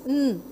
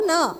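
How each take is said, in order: First: The n sound is held alone without vowel. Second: The n sound ends with a short uh vowel. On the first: The speaker calls it right. "It's n" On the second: The speaker calls it wrong. "Na is schwa word, schwa sound"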